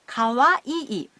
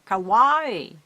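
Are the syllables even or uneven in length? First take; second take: even; uneven. First: Each syllable takes the same length of time. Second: The syllables take unequal lengths of time. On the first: The speaker calls it right. "Pronounce each syllable in the same length of time" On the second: The speaker calls it wrong. "or kawaii"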